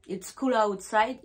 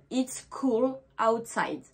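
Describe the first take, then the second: First: Said in the usual way. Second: It's cool outside said slowly, cool drawn out and falling; slow English example. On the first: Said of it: "il fait frais". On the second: Shown as a demonstration. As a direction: model it's cool outside deliberately for the class. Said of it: "je vais dire".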